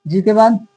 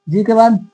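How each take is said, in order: The two takes are said the same way.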